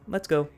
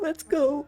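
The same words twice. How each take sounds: First: It is said in a calm, steady voice. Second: It is said in a tearful, crying voice.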